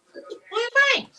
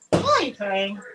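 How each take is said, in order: First: Much higher, sing-song coo to the dog; high pet talk. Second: Said in the usual way. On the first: Real, not acted. Owner asking her whimpering dog in high pet talk.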